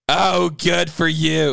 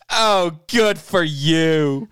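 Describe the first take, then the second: First: It is said throaty and yelled. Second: It is said in a plain voice.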